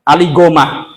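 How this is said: The surname begins with a hard g sound. "Dibaca apa? Imam Ali Gomah"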